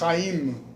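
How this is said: The name is said with a Hebrew accent. "a pronúncia ideal é Haim"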